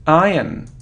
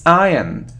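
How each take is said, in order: Both takes have the same delivery.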